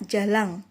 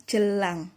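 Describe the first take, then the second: First: "jalang" with a clear open a in the first syllable; clear pronunciation. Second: "jelang" with a schwa in the first syllable; contrasting pronunciation. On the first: Teacher contrasting easily confused words, "jalang" clearly pronounced with an open first a. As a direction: articulate "jalang" clearly, not as "jelang". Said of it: "pelafalan yang jelas". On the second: Teacher contrasting easily confused words, "jelang" pronounced with a schwa first syllable. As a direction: articulate "jelang" with a short e, not as "jalang". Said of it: "tidak tertukar dengan jelang".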